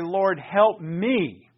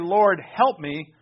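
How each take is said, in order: First: The stress is on the word me. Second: The stress is on the word help. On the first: "I heard the me a little more emphatically" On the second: "you could say"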